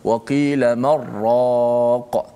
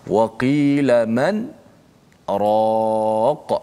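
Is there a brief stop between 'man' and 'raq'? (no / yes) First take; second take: no; yes. First: The n merges into r with no stop. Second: A brief stop without breath comes before raq. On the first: The speaker calls it wrong. "Tak boleh kita baca" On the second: The speaker calls it right. "Berhenti seketika uh, tanpa menarik nafas"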